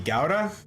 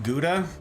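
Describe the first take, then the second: First: The word has a German-style pronunciation. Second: The word has the speaker's own American pronunciation. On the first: "they want it to be Gouda" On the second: "So I still call it Gouda"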